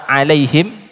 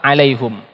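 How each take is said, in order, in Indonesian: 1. Suku kata terakhir diucapkan dengan vokal i. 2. Suku kata terakhir diucapkan dengan vokal u. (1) "yang pertama" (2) "yang kedua"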